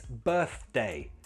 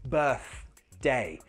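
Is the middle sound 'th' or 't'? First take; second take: th; th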